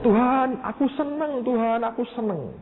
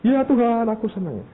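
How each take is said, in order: First: Higher, delighted call to God; joyful cry. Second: High, eager reply to God; eager answer. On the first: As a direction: repeat it bursting with joy. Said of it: "Terus dia ngomong". (berseru gembira dengan nada tinggi) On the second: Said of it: "Terus Tuhan bilang". (menjawab Tuhan dengan penuh semangat) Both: Retold or imitated.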